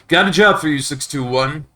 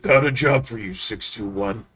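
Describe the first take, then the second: First: It is said in his normal voice. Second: It is said as a Walter impression.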